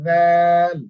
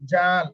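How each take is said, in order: First: The first consonant is said soft, tongue against teeth. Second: The first consonant is said hard, tongue not between teeth. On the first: The speaker calls it right. "একটু নরম করে উচ্চারণ করবেন" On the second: The speaker calls it wrong. "মুখ যদি আপনি এভাবে জাল জাল এভাবে হবে না কিন্তু"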